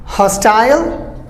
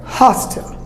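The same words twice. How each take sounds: First: Hostile slowly as HOS-tile, rising; long I in hostile; British hostile, drawn-out ending; British pronunciation. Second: Hostile cut to HOS-tl; American hostile, short ending; American pronunciation. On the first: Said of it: "British go for the I sound". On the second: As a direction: say hostile like hostel. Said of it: "Americans just cut it". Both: Shown as a demonstration.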